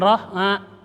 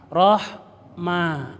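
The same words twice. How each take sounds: First: The lips close loosely on the m. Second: The lips close firmly before the m. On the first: The speaker calls it wrong. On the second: The speaker calls it right. "mimnya rapatkan dulu baru diucapkan"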